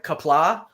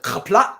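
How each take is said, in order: First: Kapla with a simple k and open, drawn-out ending; show's mispronunciation. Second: Kapla with a scraped throat opening and cut-off end; guttural Klingon kapla. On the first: Teacher quoting the show's wrong version, plain k, open ending. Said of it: "they always say it in the show like". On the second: Teacher naming the famous Klingon word, guttural opening, abrupt end. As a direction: open kapla on a guttural sound. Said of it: "it's got the super guttural sound at the beginning". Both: Shown as a demonstration.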